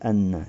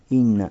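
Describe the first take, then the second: First: The word begins with an a vowel. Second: The word begins with an i vowel. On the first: The speaker calls it wrong. "а не анна. Не фатха" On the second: The speaker calls it right. "То есть касра. Инна"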